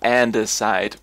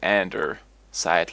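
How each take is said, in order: First: The word begins with 'ande', with no r sound. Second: The word begins with 'ander', with an r sound. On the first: "Is it called andesite" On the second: "I always pronounce it andersite, like ander cell"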